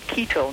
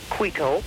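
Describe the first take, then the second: First: It starts with a plain K sound. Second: It starts with a KW sound. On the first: The speaker calls it right. "you drop the U sound" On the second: The speaker calls it wrong. "not Quito"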